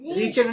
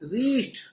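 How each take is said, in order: First: The ending is said as an extra syllable. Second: The ending is a short t with no extra syllable. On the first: The speaker calls it wrong. "रीचेड नहीं" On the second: The speaker calls it right. "रीस्ट बोलो"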